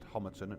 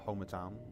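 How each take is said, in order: First: The last syllable is a short, reduced 'ton'. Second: The last syllable is a full 'town'. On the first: The speaker calls it right. "I do believe it is pronounced Homerton" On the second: The speaker calls it wrong. "not Homertown"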